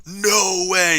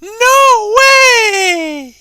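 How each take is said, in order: First: Raised, drawn-out announcer read; demonstrating an epic read-out, long held vowels; big epic voice. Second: Very high, loud mock-girly squeal; piercing falsetto, playfully mocking; mocking girl voice. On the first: Shown as a demonstration. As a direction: boom it out in an epic voice. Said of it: "but I have a deep voice". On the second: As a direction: shriek it like a hammed-up girl, vowels held long. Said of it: "make a mocking voice".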